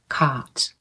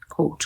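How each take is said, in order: First: The vowel sounds like an open 'ah'. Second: The vowel sounds like a long 'oh'. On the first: "American accent is ah" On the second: "Many students also say coat, That's a typical accent too"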